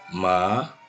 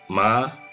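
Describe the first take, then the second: First: The pitch rises toward the end. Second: The pitch stays high and level. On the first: It means numb. "Ma yang naik ke atas" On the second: It means mother. "Ma yang datar yang pertama itu untuk mama"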